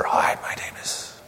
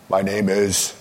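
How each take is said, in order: First: Breathless whispered hello; whispering. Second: Bold superhero introduction; heroic superhero. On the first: Pretend. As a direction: whisper it like a shy superhero. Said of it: "They all speak with a whisper". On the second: Shown as a demonstration. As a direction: announce yourself like a hero. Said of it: "Practice your superhero voice".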